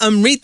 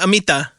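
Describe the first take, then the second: First: The name is said with an R sound. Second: The name is said without an R sound. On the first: The speaker calls it wrong. "I don't know why I stuck an R in there" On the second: The speaker calls it right. "Is it Amita?"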